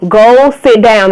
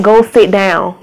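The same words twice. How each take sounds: First: Louder, drawn-out parental command; sterner repeated order. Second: Firm parental order. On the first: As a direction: stretch the words out and mean it. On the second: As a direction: tell them off without raising your voice much. Breaks off to order a child. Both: Real, not acted.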